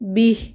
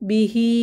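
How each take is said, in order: First: The word ends on a bare final consonant. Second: The word ends with a short final vowel. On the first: The reader stops on this word. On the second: The reading continues without a stop.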